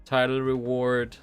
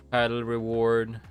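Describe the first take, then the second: No difference in how they are said.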